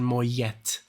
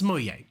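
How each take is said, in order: First: The final T sound is pronounced. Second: The final T sound is left silent. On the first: The speaker calls it wrong. "I would pronounce the T" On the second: The speaker calls it right. "but it's Moyer"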